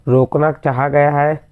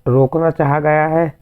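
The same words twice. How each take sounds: The two takes are said the same way.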